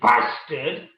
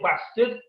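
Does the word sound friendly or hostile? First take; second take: hostile; friendly. First: The word is said forcefully, with real venom. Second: The word is said casually, like a friendly greeting. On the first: It is meant as a real insult. "if you say bastard, it means a bit more" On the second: It is just a normal way of addressing someone. "hey, up, bastard"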